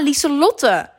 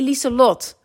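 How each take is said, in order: First: The name ends with an extra final syllable. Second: The name ends on a short closed syllable. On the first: The speaker calls it wrong. "blijft verkeerd uitspreken" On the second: The speaker calls it right.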